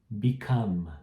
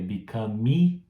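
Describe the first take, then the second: First: The word stops on the final m sound. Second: An extra vowel sound follows the final m. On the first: The speaker calls it right. "Esse E também no final é mudo" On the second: The speaker calls it wrong. "você vê que eu não falei become"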